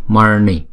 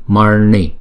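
The two takes are said the same way.

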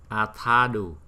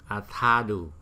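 No difference in how they are said.

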